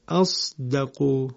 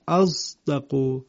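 First: The s-sound is pure, with no z quality. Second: The s-sound is mixed with a z quality. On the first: "اینجا صاد خالص هست" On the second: "مطابق قرائت حمزه کوفی به این صورت میشود"

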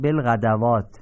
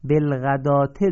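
First: A w sound is pronounced before the long a. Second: No w sound is pronounced before the long a. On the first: The speaker calls it wrong. "خیلی شاید اشتباه بکنن و بخونن بلغدوات ... این اشتباهه" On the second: The speaker calls it right. "بلغداته درسته"

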